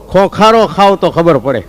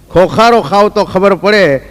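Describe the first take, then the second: First: Said in the usual way. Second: ખોખારો drawn out slowly and weighted; slow emphatic recital. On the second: Acted. Comedian to audience, repeating the punchline slowly.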